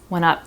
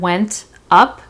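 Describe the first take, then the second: First: The T in 'went' is dropped entirely. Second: The T in 'went' is clearly pronounced. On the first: "So there's actually no T sound there" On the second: "Instead of went up"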